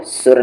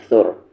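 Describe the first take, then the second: First: सुर begun on a plain s; wrong s sound. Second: सुर begun on th as in think; tongue to teeth to open सुर; correct tha sound. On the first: Teacher showing what not to read, plain s in सुर. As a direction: say सुर with seen instead of th. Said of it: "नहीं पढ़ना है". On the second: Teacher correcting the reading, th at start of सुर. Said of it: "सुर नहीं पढ़ना है". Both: Shown as a demonstration.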